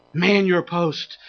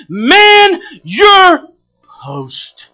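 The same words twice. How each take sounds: First: Low, soft, slow command; quiet, weighty repeat of a rallying call; hushed exhortation. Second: High, loud pulpit cry; each word held and punched; shouted exhortation. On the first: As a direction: drop down and say it deliberately. Same command repeated after a hush. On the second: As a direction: bellow it as a rallying command. Preacher's shouted command to congregation. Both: Real, not acted.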